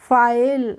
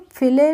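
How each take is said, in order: First: The vowel is a long 'eye' sound. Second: The vowel is a short 'ih' sound. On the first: The speaker calls it right. "इसको हम पढ़ते हैं फाइल" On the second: The speaker calls it wrong. "फिले नहीं पढ़ते हैं"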